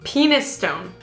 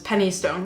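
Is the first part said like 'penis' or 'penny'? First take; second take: penis; penny. First: The first part sounds like 'penis'. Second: The first part sounds like 'penny'. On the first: It is a joking literal reading of the spelling. The speaker calls it wrong. "you can't help but see the word penis in there" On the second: It is probably what the place is called. The speaker calls it right. "so I would pronounce this as penny stone"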